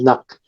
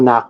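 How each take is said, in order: First: The vowel is cut short. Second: The vowel is held long. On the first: This is the word with something added after it. "it normally would shorten that um, vowel" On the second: This is the word on its own. "the original word"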